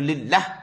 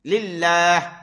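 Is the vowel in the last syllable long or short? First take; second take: short; long. First: The last vowel is cut short. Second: The last vowel is drawn out long. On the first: The speaker calls it wrong. "tak ada alif. Tak sah semayang" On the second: The speaker calls it right. "Pada ni kena panjang"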